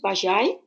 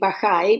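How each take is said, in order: First: The name is said without a Spanish-like pronunciation. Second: The name is said with a Spanish-like pronunciation. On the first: "I hope I'm saying this right" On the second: "which is more like the Spanish pronunciation"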